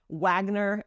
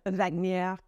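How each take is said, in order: First: The R is pronounced as an American English R. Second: The R is pronounced as a French R.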